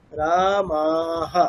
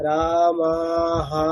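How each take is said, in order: First: "রা, মা" drawn out, "হা" cut short; short final vowel. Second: "রা, মা, হা" with all three vowels drawn out; wrongly long final vowel. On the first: Teacher showing students just this much, "হা" kept short after long রা, মা. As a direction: hold "রা" and "মা" long, stop "হা" quickly. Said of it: "ব্যাস এতটুকু". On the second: Teacher warning students against this, "হা" wrongly dragged long. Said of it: "হাটা কিন্তু আর দীর্ঘ হবে না, এরকম না". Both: Shown as a demonstration.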